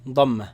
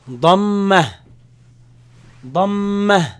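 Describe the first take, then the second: First: Said in the usual way. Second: Dhamma said loud with a held mm; drilled Dhamma. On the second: Shown as a demonstration. Teacher repeating dhamma for students to copy. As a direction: call out Dhamma for repetition. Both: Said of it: "it's called".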